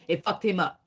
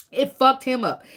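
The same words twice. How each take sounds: First: Said in the usual way. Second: It fucked him up, said higher and louder with FUCKED punched; louder, insistent restatement; emphatic repeat. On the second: Shown as a demonstration. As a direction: hit FUCKED hard the second time.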